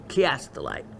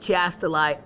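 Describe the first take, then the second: First: The word begins with a hard 'k' sound. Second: The word begins with a soft 'ch' sound. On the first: "a hard C H, like a uh, K" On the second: "some people pronounce it chastolite"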